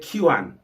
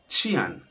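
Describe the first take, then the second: First: The word starts without a ch sound. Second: The word starts with a ch sound. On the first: The speaker calls it wrong. "you wouldn't say Qian" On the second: The speaker calls it right. "It's actually pronounced like Qian. It's like you're saying C H I A N"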